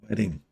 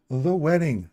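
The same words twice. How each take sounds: First: Said in the usual way. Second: The wedding, with The hit high and loud; stress on THE. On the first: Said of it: "not mine". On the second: Shown as a demonstration. Hinting at a friend's wedding, stress on The. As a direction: lean hard on The in The wedding. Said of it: "but the wedding".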